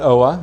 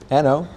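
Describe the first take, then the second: First: The name ends with an 'oh-ah' sound. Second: The name ends with a plain 'oh' sound. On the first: The speaker calls it wrong. "it's not Oa" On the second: The speaker calls it right. "it's just N O"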